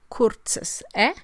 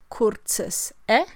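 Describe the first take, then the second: Both takes have the same delivery.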